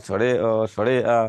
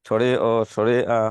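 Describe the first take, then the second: No difference in how they are said.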